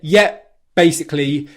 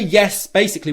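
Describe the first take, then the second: First: The first word ends with a P sound. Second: The first word ends with an S sound. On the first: It is easier to say and more informal. "with a P sound instead" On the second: It takes more work to say. "with the S sound"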